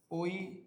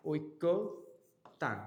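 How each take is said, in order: First: ঐকতান as "oi... ko... tan", single k; correct pronunciation. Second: ঐক্যতান as "oikko... tan", doubled k; wrong form. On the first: Teacher gives the correct form, ঐকতান with single k. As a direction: say ঐকতান in three separate syllables. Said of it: "শুদ্ধ উচ্চারণ কি হবে?". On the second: Teacher shows students the common mistake, ঐক্যতান with double k. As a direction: hold a double k in ঐক্যতান, then pause. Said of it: "ভুল বানানটা কি দেয়া থাকে?". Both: Shown as a demonstration.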